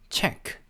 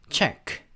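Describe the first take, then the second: The two takes are said the same way.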